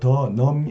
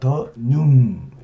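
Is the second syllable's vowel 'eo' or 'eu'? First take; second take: eo; eu. First: The second syllable has an open 'eo' vowel. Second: The second syllable has a close 'eu' vowel. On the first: The speaker calls it wrong. "더넘이 아니라" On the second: The speaker calls it right. "아니라 더눔"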